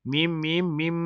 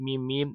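First: มีม มีม มีม hummed through the nose, each mim held two beats; nasal hold. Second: Said in the usual way. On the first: Shown as a demonstration. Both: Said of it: "หน่วงเสียงสอง".

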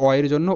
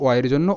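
No difference in how they are said.

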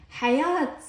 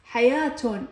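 First: حياة cut short as "hayat", no case ending; higher-pitched حياة without the "-un"; pausal ending. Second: حياة said in full as "hayaatun"; حياة with a clear "-tun" ending; case ending voiced. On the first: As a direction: say حياة as "ha-YAAT", stopping on the t. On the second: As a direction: sound the t and add "-un" on حياة. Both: Shown as a demonstration. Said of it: "تنتهي بالتاء المربوطة".

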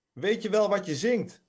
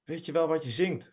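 First: Much higher, insistent read-aloud shout; mild shout. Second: Said in the usual way. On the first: A narrator's reading. Maud repeats herself over the din, mildly shouting. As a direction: raise the pitch to get through the noise. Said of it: "schreeuwde Maud nu". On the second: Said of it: "vroeg ze".

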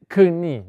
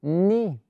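First: "knie" as k-nee, with an audible k; "knie" with a k before the n; wrong pronunciation. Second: "knee" with a silent k, as nee; "knee" said alone as nee, no k sound; correct pronunciation. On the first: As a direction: demonstrate the mistake in "knie" by sounding its first letter. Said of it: "No vamos a decir". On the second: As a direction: model "knee" starting straight on the n. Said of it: "Se dice". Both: Shown as a demonstration.

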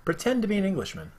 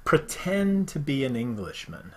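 First: Quicker, higher mock English accent. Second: A put-on English accent, slow. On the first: Host retrying the saying in a mock English accent. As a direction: try the English accent another way. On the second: Host reading a saying in a mock English accent. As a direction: say it like a proper Englishman. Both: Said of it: "I said the English accent".

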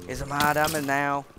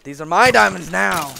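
First: Said in the usual way. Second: Much louder possessive shout; loud claim. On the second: Real, not acted. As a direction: bellow it to warn off the mobs. Guarding diamonds from mobs.

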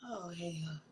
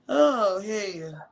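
First: Whispered. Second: Said in the usual way. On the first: Shown as a demonstration.

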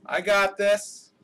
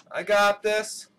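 Both takes have the same delivery.

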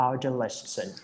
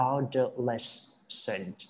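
First: Said in the usual way. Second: "adolescent" slow, syllable by syllable, weight on LES; "adolescent" drawn out as a pronunciation model; stress on middle syllable. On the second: Shown as a demonstration. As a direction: stretch out "adolescent" into separate beats, stressing the middle. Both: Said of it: "stretch ตัวกลางนะ".

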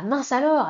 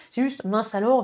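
First: A punchy little outburst; exclamation. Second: Said in the usual way. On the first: Shown as a demonstration. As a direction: say "mince alors" as an exclamation point. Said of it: "avec un point d'exclamation". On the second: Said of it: "le mince alors".

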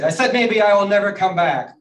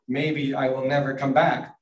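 First: Loud, high-pitched repeat; indignant shout. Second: Slow, deliberate mock sulk; pointed sulking. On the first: Turtle turning round to the sleepers, indignant shout. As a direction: shout it so they finally hear. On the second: Turtle threatening to leave the sleepers, slow pointed sulk. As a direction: announce it slowly and pointedly. First take, unheard by the others. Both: A narrator's reading.

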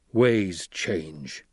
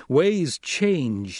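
First: Low, subdued concession; understated low-voiced acceptance; yielding. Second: Higher-pitched, emphatic statement; raised, persuasive assertion; pressing. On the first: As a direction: give in with a measured statement. Stilgar yields, dropping the knife. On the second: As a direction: press the point on him. Paul presses Stilgar to accept change. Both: A narrator's reading.

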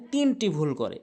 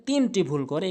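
The two takes are said the same way.

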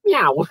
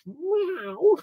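First: A plainer meow at normal pitch; cat meow, second try. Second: A high, soft, squeaky mock meow; bad cat meow. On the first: Pretend. Host retrying his cat impression, plain-pitched meow. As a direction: try the meow again in your own voice. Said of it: "That's maybe better". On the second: Host answering Mario cat quiz, high mock meow. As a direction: meow like a kitten, pitched way up. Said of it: "Very bad cat impression".

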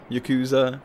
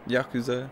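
First: "Yakuza" as yuh-KOO-zuh, weak first vowel; Yakuza pronunciation. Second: "Yakuza" as YAH-koo-zah, open first vowel; Japanese-style Yakuza. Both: Shown as a demonstration. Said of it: "two different ways of saying Yakuza".

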